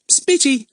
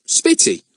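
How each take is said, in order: First: Spitty said high, mocking Ern; imitating Ern. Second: Lightly voiced Ern saying Spitty, flat and short; Ern's word. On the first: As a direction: tease by copying his word. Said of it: "don't you catch Ern's disease". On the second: A narrator's reading. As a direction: say Spitty as a plain falling word. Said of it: "said Ern".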